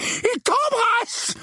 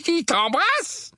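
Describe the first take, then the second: First: Very high, drawn-out outcry; appalled exclamation. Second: High, slow, disbelieving question; incredulous exclamation. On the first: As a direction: cry it out aghast, stretching the words. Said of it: "s'exclama son oncle". (exclamation outrée, suraiguë et traînante) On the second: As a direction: echo it in disbelief, rising at the end. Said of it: "s'exclama son oncle, les yeux légèrement exorbités". (question incrédule et aiguë) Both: A narrator's reading.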